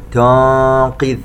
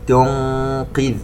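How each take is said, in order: First: تنقذ with the ق swallowed; تنقذ said lazily, ق dropped; wrong qaf demo. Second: تنقذ with a clear ق from its articulation point; تنقذ with the ق fully formed; correct qaf. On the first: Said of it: "لا نقول تنقذ". (تنقذ بقاف ضائعة خطأً) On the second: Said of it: "يجب أن تخرج القاف من مخرجها". (تنقذ بإخراج القاف من مخرجها) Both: Shown as a demonstration.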